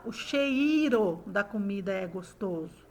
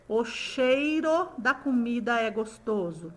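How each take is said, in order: First: CHEIRO as che-I-ro in the sentence; CHEIRO split wrongly. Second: CHEIRO glided as chei-ro in the sentence; CHEIRO as two syllables. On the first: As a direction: pull E and I apart in "cheiro". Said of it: "Ou eu falo". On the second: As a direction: keep EI joined in "cheiro". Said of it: "Vamos pôr aí essa, essa palavra numa frase". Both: Shown as a demonstration.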